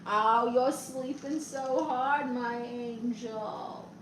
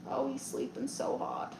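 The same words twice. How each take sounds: First: Slow, drawn-out pet talk, fading softer; tender cooing. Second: Soft remark, much quieter than usual; hushed aside. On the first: Owner talks to their sleeping dog, tender cooing. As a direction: coo lovingly to a sleeping pet. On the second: Streamer tells viewers about the sleeping dog, hushed. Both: Real, not acted.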